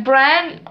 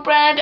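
First: "Brand?" asked with a rising, unsure tune; questioning tune. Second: "Brand." said flat and final as the answer; settled statement. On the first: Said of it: "Oh no, Brand". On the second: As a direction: state "Brand." as a firm correction. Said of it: "Oh no". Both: Shown as a demonstration.

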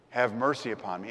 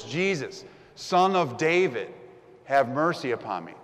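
First: Said in the usual way. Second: Louder cry, pushing on Son of David; yelling louder. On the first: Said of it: "theological understanding". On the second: Retold or imitated. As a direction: call out over the crowd once more. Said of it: "He yells even louder".

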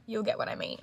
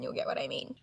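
First: Said in the usual way. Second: Soft unvoiced whisper of "you'll get what I mean". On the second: Shown as a demonstration. Repeats line, whispered.

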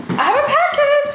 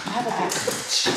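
First: Very high, loud sing-song; excited squeal. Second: Said in the usual way. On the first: Acted. Vlogger squealing about her package, high and thrilled. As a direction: squeal it with glee.

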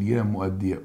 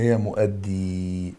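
First: مؤدي with final fatha, mu'addiya; vowelled singular form. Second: مؤدي held on a long "eee", mu'addee; long final vowel. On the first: Teacher vowels the word for students, مؤدي as mu'addiya. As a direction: end مؤدي on a short, clear "ya". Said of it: "فلو احنا حتى نشكلها". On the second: Teacher shows students the other form, مؤدي drawn out as mu'addee. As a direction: stretch the end of مؤدي slowly, with no final "a". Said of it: "هنا". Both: Shown as a demonstration.

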